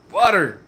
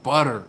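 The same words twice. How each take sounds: First: Butter repeated louder and higher for emphasis; butter hit hard the second time; stress on butter. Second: Said in the usual way. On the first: Shown as a demonstration. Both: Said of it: "Grumpus's voice is just".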